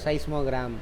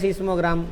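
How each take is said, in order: First: The first syllable sounds like 'sigh'. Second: The first syllable sounds like 'see'. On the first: The speaker calls it right. "இங்கிலீஷ்காரன் pronounce பண்ணுறது என்னது" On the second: The speaker calls it wrong. "நம்ம தமிழ் எழுதே சீஸ்மோகிராம் அப்படின்னு சொல்கிறோம், அதை விட்டுருங்க"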